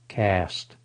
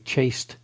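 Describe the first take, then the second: First: It begins with 'k' and rhymes with 'past'. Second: It begins with 'ch' and rhymes with 'paste'. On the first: The speaker calls it right. "It's pronounced cast" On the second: The speaker calls it wrong. "you'd think that would be chaste too"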